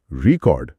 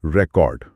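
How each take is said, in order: First: "record" with stress on the second syllable KORD; verb stress. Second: "record" with stress on the first syllable RE; noun stress. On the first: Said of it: "अगर आप दूसरे syllable पर जोर देते हैं". ("Record" दूसरे syllable पर ज़ोर, क्रिया की तरह) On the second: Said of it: "अगर आप पहले सिलेबल पर जोर देते हैं". ("रिकॉर्ड" पहले सिलेबल पर ज़ोर, संज्ञा की तरह) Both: Shown as a demonstration.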